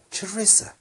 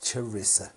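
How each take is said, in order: First: Charissa tried again much higher, rising, questioning; trying the name. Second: Said in the usual way. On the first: Shown as a demonstration. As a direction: Charissa sung up high as a test. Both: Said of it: "It is Sharissa".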